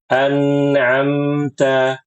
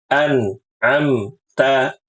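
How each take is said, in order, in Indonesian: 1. Huruf n dan m mengalir dengan halus disertai dengung sengau. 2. Huruf n dan m dipantulkan dengan lepasan yang tiba-tiba. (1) "ini yang benar"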